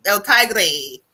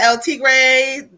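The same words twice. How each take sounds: First: "El Tigre" said TIE-gray; another try at pronunciation. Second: "El Tigre" with first syllable like "tee"; slow "El Tigre", said TEE-gray; trying a pronunciation. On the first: Host unsure of a viewer's name, "Tigre" tried as TIE-gray. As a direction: switch "Tigre" to a "tie" first syllable. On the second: Host calling the next viewer, "Tigre" tried as TEE-gray. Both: Real, not acted. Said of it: "I don't know how to say it right".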